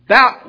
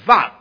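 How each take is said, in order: First: The syllable begins with a B sound. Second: The syllable begins with a V sound. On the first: "instead of we say bap" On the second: "we say vap. There's no B in the modern Greek pronunciation. It's V"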